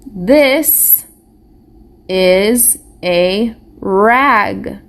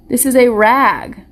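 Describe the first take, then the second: First: "This is a rag" read slowly, one word at a time, with pauses; slow, separated reading of "This is a rag". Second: Said in the usual way. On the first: Shown as a demonstration. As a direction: model each word for the class to echo. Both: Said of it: "You're reading with me?".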